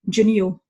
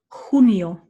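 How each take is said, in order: First: The first consonant sounds like English 'j'. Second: The first consonant sounds like a throaty 'h'. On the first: The speaker calls it wrong. "when we have an English speaker saying junio" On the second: The speaker calls it right. "take note of my h sound with the junio"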